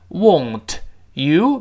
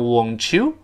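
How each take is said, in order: First: The t and y sounds are said separately. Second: The t and y blend into a ch sound.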